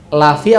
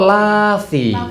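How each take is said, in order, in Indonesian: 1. Vokal setelah l pendek. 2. Vokal setelah l panjang. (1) "lamnya pendek" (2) "apa panjang"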